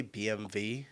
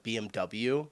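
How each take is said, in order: First: "B M W" ending in vee, imitating the German; German pronunciation. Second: "B M W" ending in double-you; English pronunciation. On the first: Telling viewers what confuses people, the German-style "B M W" with vee. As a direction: say "B M W" as bee-em-vee. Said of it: "if I say B M W". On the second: Telling viewers the familiar name, English "B M W" with double-you. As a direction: say "B M W" the usual American way, bee-em-double-you. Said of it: "instead of B M W". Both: Shown as a demonstration.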